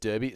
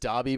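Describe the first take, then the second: First: The word is said the way it is spelled. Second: The word is said the local spoken way. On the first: "we spell it as Derby" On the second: "We pronounce it as Derby"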